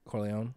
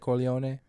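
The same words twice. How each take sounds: First: The name is said with an American pronunciation. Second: The name is said with an Italian pronunciation. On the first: "Up American, yeah" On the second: "if you're Italian, do you say Corleone?"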